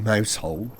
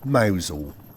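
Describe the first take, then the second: First: It is said like the words mouse and hole. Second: It is said as two short syllables, like mowzel. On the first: This is how the written name reads. The speaker calls it wrong. "It might say Mousehole" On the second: This is how local people say it. The speaker calls it right. "the Cornish pronounce it Mousehole"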